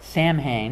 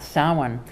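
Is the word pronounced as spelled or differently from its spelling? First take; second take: as spelled; differently. First: It is pronounced letter by letter as spelled. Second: It is pronounced unlike its spelling. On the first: The speaker calls it wrong. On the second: The speaker calls it right.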